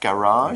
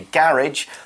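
First: It is said with an American pronunciation. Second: It is said with a non-American pronunciation. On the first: "Americans pronounce it more like garage" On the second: "I would naturally say"

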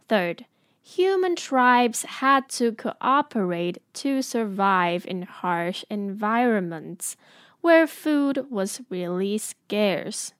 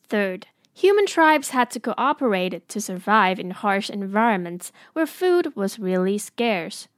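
First: It is said a little more slowly. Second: It is said at normal speed.

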